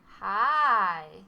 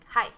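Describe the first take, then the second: First: The word is drawn out and long. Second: The word is said short and quick. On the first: "Longer means" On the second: "instead of saying something like hi"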